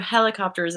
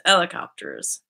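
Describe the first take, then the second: First: Said in the usual way. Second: "helicopters" without its H, as 'elicopters; Newfie-style "helicopters", silent H; dropped H. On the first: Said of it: "so instead of helicopters". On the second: Shown as a demonstration. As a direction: start "helicopters" straight on the E vowel. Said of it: "Newfies leave out H S on H words".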